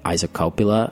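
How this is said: It is said with an American accent.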